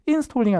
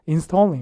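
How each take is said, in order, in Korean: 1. 강세가 단어 앞쪽에 있어요. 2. 강세가 단어 뒤쪽에 있어요. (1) "installing 아니라" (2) "거의 installing 이렇게 강세 뒤쪽에 빠져서"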